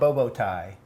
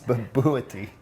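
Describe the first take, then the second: First: The last syllable sounds like 'tie'. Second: The last syllable sounds like 'tee'. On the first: The speaker calls it wrong. "It's not bobo tie" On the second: The speaker calls it right. "You got to get that second syllable in"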